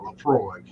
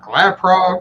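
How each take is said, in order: First: The name is said with an f sound: Lafroy. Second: The name is said with a p sound: Laprog. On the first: The speaker calls it right. "That makes perfect sense now" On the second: The speaker calls it wrong. "I was like Laprog"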